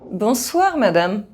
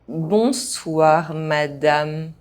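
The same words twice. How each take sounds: First: The phrase is spoken fast. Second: The phrase is spoken at normal pace. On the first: This is how native speakers say it. "fast, as a native speaker would do" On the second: This is the recommended way for learners to say it. "at a normal pace"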